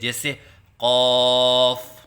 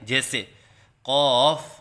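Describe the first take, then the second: First: The vowel is held on a steady voice. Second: The vowel is held with a wavering voice. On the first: The speaker calls it right. "अलिफ की अदायगी मुंह के खोलने से होती है" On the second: The speaker calls it wrong. "आवाज़ में लहराव सा पैदा करते हैं, ये गलत है"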